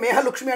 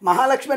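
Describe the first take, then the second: First: The first vowel is an 'e' sound. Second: The first vowel is an open 'a' sound. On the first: The name is distorted, so nobody answers. The speaker calls it wrong. "మేహలక్ష్మి అంటే పలుకుతారా?" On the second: The name is called correctly. The speaker calls it right. "మహాలక్ష్మి అని పిలిస్తే మీరు పలుకుతారు"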